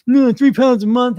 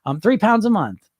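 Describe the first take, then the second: First: High, loud, slowed scoff at "three pounds a month"; mock scoffing dieter. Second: Said in the usual way. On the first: Coach mocking a dieter who scoffs at slow loss, loud and high. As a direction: ham up a disgusted dieter. Mocks impatient dieter's reaction.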